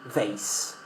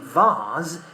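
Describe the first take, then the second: First: The word is said with an American pronunciation. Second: The word is said with a British pronunciation. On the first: "In American English, we say vase" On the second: "We say vase in British English"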